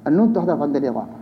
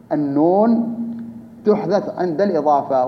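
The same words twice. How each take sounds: First: Said in the usual way. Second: Slower, with a pause after "النون"; measured restatement. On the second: Real, not acted. Teacher restating a grammar rule to students, measured and spaced out. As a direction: set "النون" apart on a rise, then give the rest evenly.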